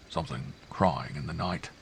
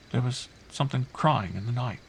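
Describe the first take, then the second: First: Half to himself. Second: Put-on higher child voice, hushed wonder; child's eerie report. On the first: A narrator's reading. Uncle echoing the child's words, half to himself. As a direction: repeat it quietly, as if to yourself. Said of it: "he repeated quickly, half to himself". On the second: Girl telling uncle what woke her, wondering.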